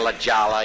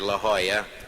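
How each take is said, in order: First: The name is said with an English-style pronunciation. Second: The name is said with a Spanish-style pronunciation. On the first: The speaker calls it wrong. "Instead of saying La Jala, you know, and people cringe" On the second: The speaker calls it right. "learned a little Spanish since then, and I come on pretty strong"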